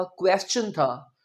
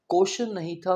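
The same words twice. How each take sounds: First: क्वेश्चन said "kwest-chun"; careful क्वेश्चन with w and t-ch; correct pronunciation. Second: क्वेश्चन said "koshan"; the mistaken क्वेश्चन, koshan; wrong pronunciation. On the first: Teacher models the right way: क्वेश्चन as kwest-chun. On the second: Teacher shows the wrong way: क्वेश्चन as koshan. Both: Shown as a demonstration.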